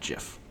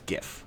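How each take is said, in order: First: It begins with a soft G sound. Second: It begins with a hard G sound. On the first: The speaker calls it wrong. "not GIF. GIF is a peanut butter" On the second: The speaker calls it right. "graphics, not graphics. So it's GIF"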